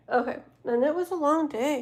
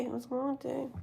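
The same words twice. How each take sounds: First: Said in the usual way. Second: Much softer, muttered echo to herself; quiet repeat. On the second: Real, not acted. Streamer echoes to herself how tiring the day was, softly. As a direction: drop the volume and repeat it to yourself.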